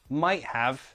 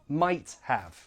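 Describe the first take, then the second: First: The T is replaced by a glottal catch. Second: Both words are said fully with a clear T. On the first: "You're glottalizing that T sound" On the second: "That's fine"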